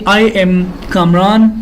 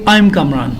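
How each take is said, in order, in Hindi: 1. 'I am' को दो पूरे शब्दों की तरह कहा जाता है। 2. 'I am' को एक सिलेबल में संक्षिप्त कर दिया जाता है। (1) "नहीं ये गलत है" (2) "आप लोग कहेंगे"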